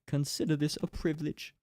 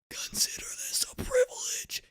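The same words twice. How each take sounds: First: It is said in a plain voice. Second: It is said in a harsh rasping voice.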